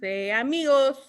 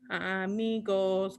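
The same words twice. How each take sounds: First: Said in the usual way. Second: "Amigos" said slowly and clearly, syllable by syllable; slow model word. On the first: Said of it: "Can you say amigos?". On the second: Shown as a demonstration.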